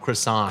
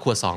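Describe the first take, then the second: First: It is said the American way. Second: It is said the Thai way, nearer French.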